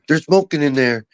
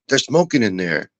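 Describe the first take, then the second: First: It is said loudly. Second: It is said at a normal, quieter volume.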